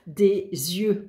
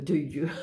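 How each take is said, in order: First: Said in the usual way. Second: De yeux, a slip said with a small laugh. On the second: Shown as a demonstration. Reading the rune sounds to viewers, fumbling de yeux with a laugh. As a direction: stumble on de yeux, then laugh at yourself.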